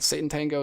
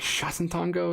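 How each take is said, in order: First: The first sound is a plain s sound. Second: The first sound is an sh sound. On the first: "is the American pronunciation" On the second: "is like the Hungarian pronunciation"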